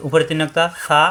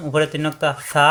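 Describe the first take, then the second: No difference in how they are said.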